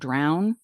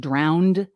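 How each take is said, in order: First: It uses the standard pronunciation. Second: It uses a regional New Jersey pronunciation. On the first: The speaker calls it right. "instead of drown" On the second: The speaker calls it wrong. "I say drowned"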